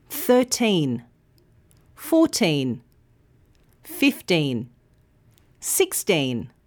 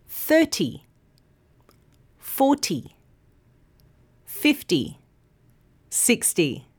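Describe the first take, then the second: First: Put-on Thirteen, fourteen, fifteen, sixteen with teen long and clear; teen stressed. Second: Thirty, forty, fifty, sixty with first syllable long, ty short; first syllable stressed. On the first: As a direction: lean on the teen each time. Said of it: "The second syllable, teen, is long and clear". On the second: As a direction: hit the front of each number. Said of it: "the first syllable is long and clear". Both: Shown as a demonstration.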